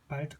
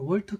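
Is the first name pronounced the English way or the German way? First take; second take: German; English. First: The name starts with a V sound, German-style. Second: The name starts with a W sound, English-style. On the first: "독일식으로 발음하면 발트가 맞죠" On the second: "이 월트는 영어식 발음입니다"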